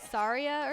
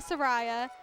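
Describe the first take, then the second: First: The middle syllable sounds like 'ree'. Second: The middle syllable sounds like 'ray', rhyming with Mariah. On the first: The speaker calls it right. "people say it's supposed to be Saria" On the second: The speaker calls it wrong. "I still say Soraya"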